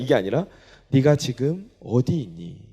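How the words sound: It sounds loving and sorrowful.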